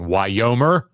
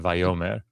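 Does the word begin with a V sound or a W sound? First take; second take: W sound; V sound. First: The word begins with a W sound. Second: The word begins with a V sound. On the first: This is the ancient pronunciation. "the uh, sixth letter of the Hebrew alphabet in antiquity was pronounced like a W" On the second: This is the modern pronunciation. "we say Vyomer"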